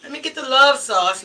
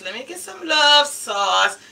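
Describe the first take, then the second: First: Said in the usual way. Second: Slow, relishing "love sauce" with weight on "love"; savoring the name. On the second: Shown as a demonstration. Ordering the sauce she likes the name of, savoring it. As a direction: linger on "love" in "love sauce", slowly. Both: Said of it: "I just like the name of it".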